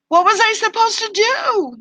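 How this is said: It is said in a helpless, whiny way.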